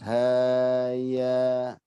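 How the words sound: The syllables ha and ya are joined smoothly. The speaker calls it right. "Haya jangan terputus"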